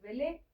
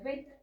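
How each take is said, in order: First: The word ends with an added final vowel. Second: The word ends on a consonant sound. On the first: The speaker calls it wrong. "esta no es belé" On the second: The speaker calls it right. "esta es como bel"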